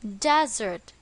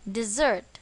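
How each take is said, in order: First: The stress is on the first syllable. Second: The stress is on the second syllable.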